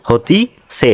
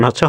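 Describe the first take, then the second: First: "হতিছে" split as "হোতি-সে"; আঞ্চলিক উচ্চারণ. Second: "হচ্ছে" with a doubled consonant, hos-se; প্রমিত উচ্চারণ. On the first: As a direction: regional "হতিছে", hoti, pause, se. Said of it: "এটা হচ্ছে আঞ্চলিক শব্দ". (আঞ্চলিক টানে "হতিছে") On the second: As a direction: standard "হচ্ছে", two syllables with no ti. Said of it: "প্রমিত উচ্চারণ হচ্ছে". (প্রমিত উচ্চারণে "হচ্ছে") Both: Shown as a demonstration.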